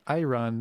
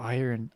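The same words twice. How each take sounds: First: "Iron" said as "eye-run"; playful mispronunciation. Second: Said in the usual way. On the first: Pretend. Streamer spots iron in the game, playfully saying "Iron" as eye-run.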